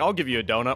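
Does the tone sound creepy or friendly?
friendly. The tone is cheerful, warm and friendly. It is an invitation to share a treat. "it sounds like an invitation for a tasty treat with friends"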